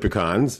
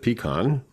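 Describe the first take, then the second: First: The stress is on the second syllable. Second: The stress is on the first syllable. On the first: This is how the speaker has always said it. "with the emphasis on the on, not the P" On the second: This is how people from the Midwest say it. "she pronounces it pecan"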